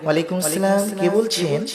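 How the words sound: It is said in a soft, sweet tone.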